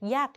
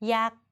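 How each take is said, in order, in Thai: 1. พยางค์นี้ออกเสียงโท 2. พยางค์นี้ออกเสียงสามัญ (1) "โท" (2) "สามัญ"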